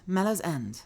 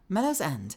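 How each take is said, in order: First: The name is said as 'mellow's end'. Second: The same.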